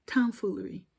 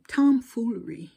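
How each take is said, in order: First: "Tomfoolery" repeated flatter, at normal volume; dry repeat. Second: "tomfoolery" hit loud with a falling tune; emphatic word. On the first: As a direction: echo "Tomfoolery" drily, not pushed. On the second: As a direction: land "tomfoolery" hard and louder. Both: Shown as a demonstration.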